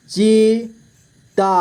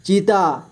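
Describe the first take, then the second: First: चीता split slowly into ची, ता; long gap between ची and ता in चीता; syllable by syllable. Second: Said in the usual way. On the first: Shown as a demonstration. (चीता को तोड़कर धीरे: ची, ता) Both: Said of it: "तो च से ची बन गया".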